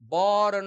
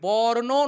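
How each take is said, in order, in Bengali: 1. শব্দটি কোনো যোগ করা স্বরধ্বনি ছাড়াই শেষ হয়। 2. শব্দটি একটি যোগ করা 'o' স্বরধ্বনি দিয়ে শেষ হয়। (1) "ওকারও নেই" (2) "তাই বর্ণ নয়"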